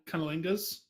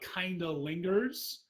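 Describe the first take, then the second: First: It is said fast, the ending slurred. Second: It is said at normal pace, clearly.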